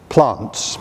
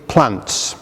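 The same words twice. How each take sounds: First: It is said in a southern English accent. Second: It is said without a southern English accent.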